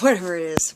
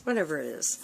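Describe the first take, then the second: First: Laughing. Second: Said in the usual way. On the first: Real, not acted. Corrects herself, laughing.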